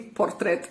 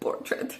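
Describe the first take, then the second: First: The word is pronounced the English way. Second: The word is pronounced the Romanian way. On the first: The speaker calls it right. "I'm sorry" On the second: The speaker calls it wrong. "That was a Romanian pronunciation"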